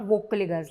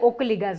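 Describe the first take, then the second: First: The word begins with a clear v sound. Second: The word begins with a vowel, no v sound. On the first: The speaker calls it right. "not Vocaligas, like we say" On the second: The speaker calls it wrong. "you call them Okaligas"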